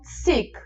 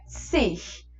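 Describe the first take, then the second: First: The word ends with a k-like sound. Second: The word ends without a k-like sound. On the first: This is a less common variant form. "puxado para um K ali ao final" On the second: This is the main, most common form. "A principal é sich"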